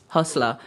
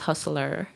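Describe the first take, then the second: First: The word ends in a plain 'la' sound. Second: The word ends with a clear 'r' sound. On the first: The speaker calls it right. "That's how we say it" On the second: The speaker calls it wrong. "Nobody says hustler"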